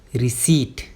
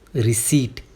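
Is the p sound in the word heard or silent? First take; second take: silent; silent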